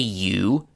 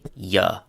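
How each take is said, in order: First: The word is said with a full 'oo' vowel. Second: The word is said with a reduced 'uh' vowel. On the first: The speaker calls it wrong. "don't say you" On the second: The speaker calls it right. "say ya"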